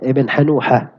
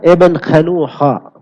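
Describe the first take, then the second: First: The name begins with a soft h sound. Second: The name begins with a rasping kh sound. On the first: "pakai ha juga bisa" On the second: "Pakai kha bisa"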